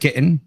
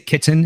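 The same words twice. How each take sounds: First: The middle T is dropped or swallowed. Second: The middle T is clearly pronounced. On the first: This is the Michigan accent the speaker grew up with. "instead of" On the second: This is the speaker's current way of speaking. "I say my T's now"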